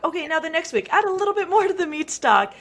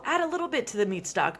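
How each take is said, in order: First: Higher and louder, stressing more; emphatic next step. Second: Said in the usual way. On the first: Shown as a demonstration. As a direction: build it up for week two. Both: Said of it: "Con-, oh".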